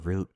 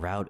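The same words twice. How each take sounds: First: "route" with an oo vowel, rhyming with boot; "route" pronounced root, to rhyme with shoot. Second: "route" with an ow vowel, rhyming with out; "route" pronounced to rhyme with shout; "route" said like rout. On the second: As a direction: say "route" as "rowt". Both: Shown as a demonstration. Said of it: "I keep saying route and route interchangeably".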